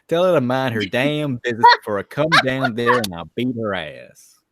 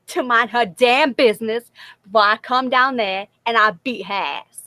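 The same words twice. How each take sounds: First: Loud, furious threat; angry threat. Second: Loud threat broken up by laughter; laughing. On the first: Friend reading the line aloud for the other, loud and angry. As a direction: bark the threat like you mean it. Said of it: "you want me to say it like that". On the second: Repeating the friend's threat back, loud and laughing. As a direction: try the threat but crack up. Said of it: "if you want me to say it like you said it". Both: Acted.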